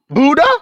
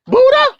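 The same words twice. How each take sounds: First: Said in the usual way. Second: Buddha? squeaked much higher and louder in scornful disbelief; scoffing high-pitched Buddha?; mocking disbelief. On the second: Real, not acted. Mocks the answer Buddha.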